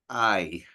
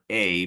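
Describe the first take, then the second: First: The name is pronounced like 'eye'. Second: The name is pronounced like 'ay'. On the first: The speaker calls it right. "I'm pronouncing that I" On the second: The speaker calls it wrong. "I was saying uh, A"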